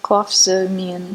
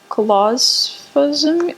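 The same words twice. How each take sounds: First: Clofazimine said plainly as klof-SUH-meen, falling and sure; confident clofazimine. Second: Clofazimine sounded out slowly, rising unsure at the end; unsure try at clofazimine. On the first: Shown as a demonstration. Co-host settles the drug name, plain and sure. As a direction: say clofazimine as if you know it. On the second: Real, not acted. Reading an unfamiliar drug name on the podcast, slow and unsure. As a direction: stumble slowly through clofazimine. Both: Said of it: "I don't know how to say this".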